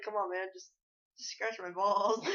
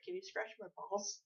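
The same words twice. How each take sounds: First: Slower, drawn-out mock coaxing; mock pleading. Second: Quiet, awkward mock request; feigned awkwardness. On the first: Retelling his prank as strangers laugh, mock pleading. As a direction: coax them, stretching out the last words. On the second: Retelling his prank on strangers, feigned awkward and quiet. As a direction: ask it softly, pretending to be awkward. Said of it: "I pretended to be, like, awkward".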